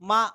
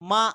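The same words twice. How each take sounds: Both takes have the same delivery.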